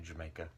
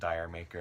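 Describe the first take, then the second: First: It sounds like 'Jamaica' in a British accent. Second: It sounds like the words 'dire maker'. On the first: The speaker calls it right. "supposed to be like with a British accent" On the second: The speaker calls it wrong. "I've heard a lot of weird uh, pronunciations of that"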